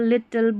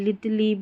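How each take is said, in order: First: The word ends with a plain l sound. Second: The word ends with an added lee sound. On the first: The speaker calls it right. "इसको लॉ पढ़ देना है" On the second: The speaker calls it wrong. "ऐसे नहीं ... गलत उच्चारण"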